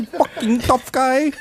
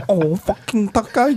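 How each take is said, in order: First: Much higher, slow, stretched mocking voice; hammed-up ridicule; exaggerated mock tough-guy hype. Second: Higher mocking hype voice; a mocking jab, rising at the end; mock tough-guy hype. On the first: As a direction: drag it out and push the mockery further. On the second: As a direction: sneer out the tough-guy sales pitch.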